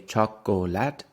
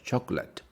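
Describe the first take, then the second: First: The word is said with three syllables. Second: The word is said with two syllables. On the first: The speaker calls it wrong. "we don't say chocolate, like it's not three syllables" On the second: The speaker calls it right. "we say chocolate"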